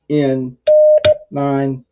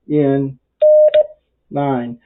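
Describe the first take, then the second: No difference in how they are said.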